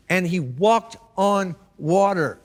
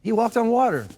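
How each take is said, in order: First: And he walked on water, leaning slowly on "walked"; stress on walked. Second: He walked on water, lifted higher with "water" punched; stress on water. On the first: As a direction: drag it out and land hard on "walked". Preacher dwells on Peter's miracle. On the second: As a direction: raise the pitch and hit "water". Preacher repeats the miracle line higher. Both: Real, not acted.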